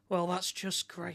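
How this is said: It is said in a sarcastic, displeased tone. The speaker is actually unhappy about it. The speaker calls it right. "this is a bad thing"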